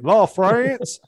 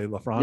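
First: The name is said with a Southern American accent. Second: The name is said with a more standard accent. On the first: This is how people from the speaker's home region say it. "being from Mississippi, I'd say LaFrance" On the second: This is how the name's owner says it. "but I'll say LaFrance"

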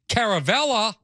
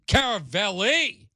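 First: The name ends with an 'ah' vowel. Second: The name ends with an 'ee' vowel. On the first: This is the name's actual form. The speaker calls it right. "It's actually Caravella" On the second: This form sounds more Italian and stylish. The speaker calls it wrong. "I call him Caravelli because it sounds more Italian"

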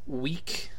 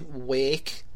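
First: It is said in a standard accent. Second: It is said in a rural country accent.

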